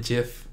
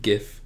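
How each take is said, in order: First: "gif" said like "jiff"; soft-g "gif". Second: "gif" with a hard g. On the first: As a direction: say "gif" with a soft j sound at the start. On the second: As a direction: say "gif" with the g of "gift". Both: Shown as a demonstration. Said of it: "I don't know what you call it".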